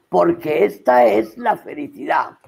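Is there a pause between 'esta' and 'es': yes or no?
no. Esta and es are joined without a pause.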